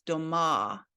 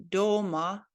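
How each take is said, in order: First: "doma" stressed on the final A; do-MA, "doma" with a long falling last vowel; stress on last syllable. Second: "doma" stressed on the O; DO-ma, "doma" with a long first vowel; stress on first syllable. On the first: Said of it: "and this one is". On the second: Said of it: "this one is pronounced like". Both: Shown as a demonstration.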